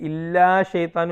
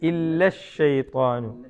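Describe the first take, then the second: First: The final vowel of 'illa' is drawn out long. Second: The final vowel of 'illa' is kept short. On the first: The speaker calls it wrong. "അല്ല" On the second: The speaker calls it right. "എന്ന് തോന്നണം"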